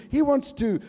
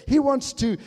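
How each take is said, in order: Both takes have the same delivery.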